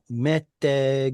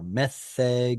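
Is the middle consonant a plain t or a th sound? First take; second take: plain t; th sound. First: The middle consonant is a plain t sound. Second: The middle consonant is a th sound. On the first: This is the modern pronunciation. "if you want to use the modern pronunciation" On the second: This is an older pronunciation. "if you want to use a an older pronunciation"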